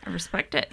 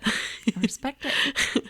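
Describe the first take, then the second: First: Said in the usual way. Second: Drawn-out approval. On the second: Real, not acted.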